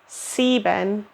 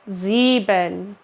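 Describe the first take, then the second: First: It begins with a hissing S sound. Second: It begins with a buzzing Z sound. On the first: The speaker calls it wrong. "not like an S" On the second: The speaker calls it right. "say that S like a Z"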